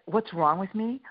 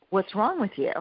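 First: Mock-offended comeback, lifting on "me"; retold indignant echo. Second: Mock-baffled husband, pitched higher with falling end; retold exasperated challenge. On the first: Wife answering husband in a kitchen quarrel, indignant echo. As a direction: question thrown back, higher and rising at the end. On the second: Husband to wife in a kitchen quarrel, exasperated challenge. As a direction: imitate a husband's affronted question.

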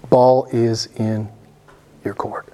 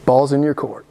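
First: "Ball is in" word by word, dropping on "your court"; slow, deliberate. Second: Said in the usual way. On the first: Real, not acted. Preacher leaves the choice to them, slow and deliberate.

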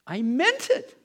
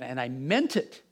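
First: "meant" punched much higher and louder; emphatic repeat. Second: Said in the usual way. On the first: Real, not acted. Preacher insisting to the congregation that he meant it, emphatic. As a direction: hammer home the word "meant".

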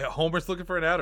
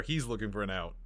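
First: Homer's picked out, pitched higher; stress on Homer's. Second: He's set against the other name; stress on he's. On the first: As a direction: lean on Homer's in a quick checking question. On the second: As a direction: lean on he's, lower second option. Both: Real, not acted. Clarifies who wants an out.

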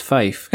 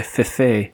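First: Fife as one syllable rhyming with "life"; correct pronunciation. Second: Fife said as two syllables, "fih-fay"; joke mispronunciation. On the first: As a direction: say Fife with a long I, "fyfe". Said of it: "It's pronounced Fife". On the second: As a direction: stretch Fife into a mock-fancy "fee-FAY". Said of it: "it's pronounced". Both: Shown as a demonstration.

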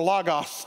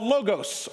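First: "logos" as LAH-gahss; open-O pronunciation. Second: "logos" as LOH-gohss; long-O pronunciation. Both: Shown as a demonstration. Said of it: "depending on who taught you Greek".

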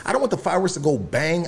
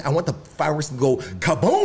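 First: Said in the usual way. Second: Long, heavy "kaboom" for effect; stress on kaboom. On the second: Shown as a demonstration. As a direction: stretch "kaboom" into a big explosion. Contrasting a weak and big firework.

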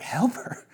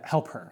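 First: High, rising question on "Help her"; incredulous echo. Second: Said in the usual way. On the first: Retold or imitated. Stunned hiker answers his friend's plea, incredulous rising "Help her". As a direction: throw "Help her" back as a disbelieving question. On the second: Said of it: "he's like".

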